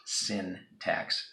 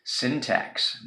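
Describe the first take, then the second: First: "syntax" drawn out slowly with a long hissed final s; slow stretched "syntax" as the mistake; wrong syntax. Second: "Syntax" said plainly with short i; the right way to say "Syntax"; correct syntax. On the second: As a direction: model pronunciation of "Syntax". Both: Shown as a demonstration. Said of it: "not syntax".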